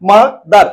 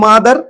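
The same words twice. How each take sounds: First: "mother" in two firm, separate beats; split into syllables. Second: Said in the usual way. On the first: Shown as a demonstration. Teacher showing the two parts, "mother" broken in two. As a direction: divide "mother" after its first syllable with a small gap. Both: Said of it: "এই যে দুটো উচ্চারণ করেছি".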